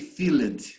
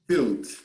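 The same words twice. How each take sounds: First: The -ed ending is said as its own syllable. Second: The -ed ending adds no extra syllable. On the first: The speaker calls it wrong. "I don't say filled" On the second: The speaker calls it right. "I say filled"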